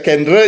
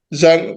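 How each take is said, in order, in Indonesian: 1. Itu dibaca huruf demi huruf sesuai ejaannya. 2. Itu diucapkan dengan lafal Prancis.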